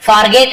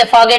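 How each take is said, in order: First: "forget" with a sounded r; r fully pronounced. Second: "forget" with the r dropped; silent r. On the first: Teacher showing what not to say, "forget" with the r sounded. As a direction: say "forget" as "far-get", r clearly heard. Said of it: "ऐसे नहीं बोलते". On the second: Teacher correcting for students, "forget" with the r silent. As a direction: say "forget" as "faw-get", no r. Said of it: "थोड़ा आर silent होता है". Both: Shown as a demonstration.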